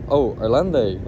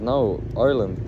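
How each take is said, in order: First: Loud mock-French "Irlande"; imitated French accent. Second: Said in the usual way. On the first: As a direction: say "Irlande" as a Frenchman would, louder. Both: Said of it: "that's not how I say it".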